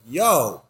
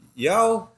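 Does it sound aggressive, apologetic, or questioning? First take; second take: aggressive; questioning. First: It is said in an aggressive tone. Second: It is said in a questioning tone.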